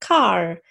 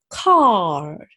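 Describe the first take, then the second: First: It is said as if smiling, with R. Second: It has a long open A, no strong R.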